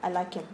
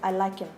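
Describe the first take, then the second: First: The h in him is dropped and linked. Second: The same.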